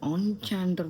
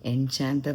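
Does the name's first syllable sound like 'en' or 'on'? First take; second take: on; en. First: The first syllable is said as 'on'. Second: The first syllable is said as 'en'. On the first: This is how the name is actually pronounced. The speaker calls it right. "ഓൺ ചാൻഡർ എന്നോ അങ്ങനെ എന്തോന്നാണ് pronounce ചെയ്യുന്നത്" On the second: This is how they read the name. The speaker calls it wrong. "എൻചാൻഡർ എന്നാണ് ഞങ്ങൾ വായിക്കുന്നതിന്"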